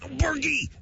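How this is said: It is said as a strained, quiet yell.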